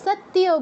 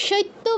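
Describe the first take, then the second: First: সত্যিও as sat-tiyo, y after t; correct sounded y. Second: Slow সত্য as shoitto, i before t; wrong reversed order. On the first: Teacher corrects for students, সত্যিও as sat-tiyo. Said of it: "সত্যিও বলছি". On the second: Teacher warns students, সত্য as shoitto. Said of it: "সত্য বলছি না". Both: Shown as a demonstration.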